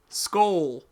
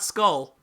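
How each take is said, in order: First: "Skull" said with a long oh, like skoal; "Skull" rhyming with goal, the Vikings way; right pronunciation. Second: "skull" said like the English word skull, short uh vowel; "skull" with a short, flat uh, the mistaken way; wrong pronunciation. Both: Shown as a demonstration. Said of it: "how do you pronounce that S K O L".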